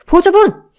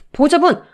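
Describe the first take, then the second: First: Higher and louder frantic shout. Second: Loud urgent call of alarm. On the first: Hospital staff shouts at the collapsed mother, frantic yell. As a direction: yell it in panic now. Staff calls fainting guardian. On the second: Hospital staff calls to the fainting mother, loud alarmed call. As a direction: call out to her as she collapses. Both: Acted.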